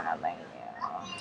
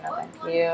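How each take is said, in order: First: Very low, slow put-on voice; comic deep voice. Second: Said in the usual way. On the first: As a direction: drop way down into a silly deep voice.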